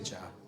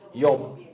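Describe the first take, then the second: First: The name begins with a J sound. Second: The name begins with a Y sound. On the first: This is the American way of saying it. "미국 쪽에서는 Job이라고 그러고" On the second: This is the way it is said in the Palestine region. "팔레스타인 이 지역에 하면 욥이라고 그런다고요"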